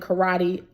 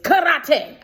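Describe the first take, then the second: First: Karate is said with a plain, ordinary pronunciation. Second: Karate is said with an unusual, imitated pronunciation. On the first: "I didn't say it that way" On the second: "how he would say it is karate"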